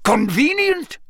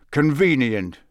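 First: High, sharp incredulous question; indignant echo. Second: Hint at something darkly; sly. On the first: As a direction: toss the word back in disbelief. Karkaroff echoes sharply. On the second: Moody's sly remark. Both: A narrator's reading.

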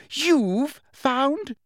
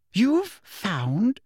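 First: Very high You've found?, pitch leaping up; You've found? shrieked in outrage; shriller still. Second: High shocked You've found?; You've found? squeaked in disbelief; shrill. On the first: Umbridge outraged at Dumbledore, shrill. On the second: Umbridge stunned by Dumbledore, shrill. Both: A narrator's reading. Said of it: "said Umbridge shrilly".

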